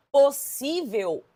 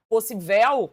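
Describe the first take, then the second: First: Said in the usual way. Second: "possível" wrongly stressed on the last syllable; wrong final stress. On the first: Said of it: "não tenho como tirar esse acento". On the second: Shown as a demonstration. Teacher showing a word that does not exist, "possível" stressed on VEL. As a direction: say "possível" as po-ssi-VEL, loudly. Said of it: "Essa palavra não existe".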